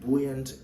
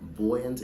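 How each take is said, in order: First: It is said with an American pronunciation. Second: It is said with a British pronunciation. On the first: "is how to say it in American accent" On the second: "is how to say it in um, the British English accent"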